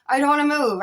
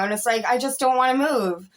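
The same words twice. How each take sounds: First: "I don't wanna move" repeated with "wanna" pressed and a little higher; emphatic repeat. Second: Said in the usual way. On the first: Shown as a demonstration. To her viewers, repeating it with extra weight.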